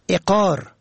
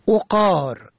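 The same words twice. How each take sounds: First: The first vowel is e, as in eqar. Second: The first vowel is o, as in oqar. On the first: It means property and estate. "به کسر اول" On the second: It means wine. "به ضم اول"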